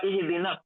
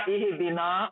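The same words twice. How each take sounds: First: इहदीना with ना cut short, run on into the next word; short ना in इहदीना, no stretch; joined short ending. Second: इहदीना with the final ना drawn out long; stretched long a. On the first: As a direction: clip ना in इहदीना and link it to स्वाद. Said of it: "मिला के पढ़ने के लिए वो बन जाता". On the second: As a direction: hold the आ of ना in इहदीना. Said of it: "खींच के पढ़ना था". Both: Shown as a demonstration.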